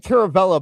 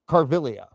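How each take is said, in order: First: The name is said as Caravella. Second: The name is said as Carvilia. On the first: The speaker calls it wrong. "I always say Caravella" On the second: The speaker calls it right. "I think that's how you pronounce it"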